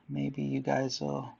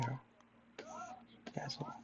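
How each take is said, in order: First: Said in the usual way. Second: Sudden breathy whisper. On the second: Acted. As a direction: drop to a slow whisper. Sudden whisper mid-sentence.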